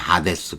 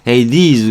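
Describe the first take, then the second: First: The first vowel is an open 'ah' sound. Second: The first vowel is a gliding 'ay' sound. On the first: It keeps the original Greek reading. "그대로 편하게 읽으면 그리스 말인 거예요" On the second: It is the English way of saying it. "굳이 영어로 발음하려면"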